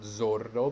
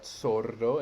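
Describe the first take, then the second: First: The first sound is a buzzing Z. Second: The first sound is a hissing S. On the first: The speaker calls it wrong. "not zordo" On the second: The speaker calls it right. "Initial S in Italian is unvoiced"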